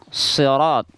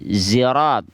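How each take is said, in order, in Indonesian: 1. Diawali dengan bunyi s emfatik yang tebal. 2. Diawali dengan bunyi z bersuara. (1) "pakai yakni shad" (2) "dibaca dengan zai"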